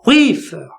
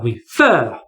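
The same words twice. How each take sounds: First: Refer said as RE-fer; wrong first-syllable stress. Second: Refer said as re-FER; stress on final syllable. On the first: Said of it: "I don't say begin or refer". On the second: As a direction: punch and stretch the fer of refer. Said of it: "the stress here is on gin or fer". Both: Shown as a demonstration.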